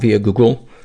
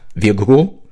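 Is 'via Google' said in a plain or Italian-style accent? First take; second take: plain; Italian. First: It is said in the speaker's plain accent. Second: It is said in an exaggerated Italian accent.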